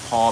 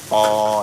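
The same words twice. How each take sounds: First: It is said with the standard consonant. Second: It is said with the local accent's consonant. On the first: "the paw becomes" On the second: "a lot of things change up here with the accent"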